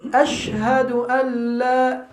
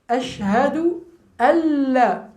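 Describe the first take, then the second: First: The n is pronounced separately before la. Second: The n merges into the following l sound. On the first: The speaker calls it wrong. "Normalement c'est an la" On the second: The speaker calls it right. "On ne prononce pas le nun sakina"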